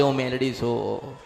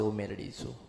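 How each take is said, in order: First: A hint of a lower goddess voice, slightly hushed; goddess announcing herself. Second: A much lower, much softer otherworldly voice declaring itself; goddess announcing herself. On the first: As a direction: lightly voice the goddess stepping forward. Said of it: "પેલી ચાવણ માતા મઠમાંથી બોલવા આવશે". (હળવો દેવીનો અવાજ, થોડો નીચો) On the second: Acted. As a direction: speak as the goddess rising from within, low and hushed. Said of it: "ત્યારે પેલી માં બોલવા આવશે". (નીચા, ધીમા, અલૌકિક અવાજે દેવી પોતાની ઓળખ આપે)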